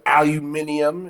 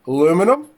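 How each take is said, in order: First: It is said the British way, five syllables. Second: It is said the American way, four syllables.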